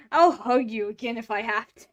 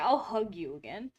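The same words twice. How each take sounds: First: Louder, teasing; playful louder threat. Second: Said in the usual way. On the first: Real, not acted. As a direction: say it louder, half-joking threat. Teasing the cat with hugs.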